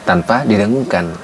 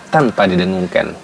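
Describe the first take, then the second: The two takes are said the same way.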